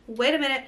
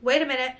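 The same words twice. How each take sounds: The two takes are said the same way.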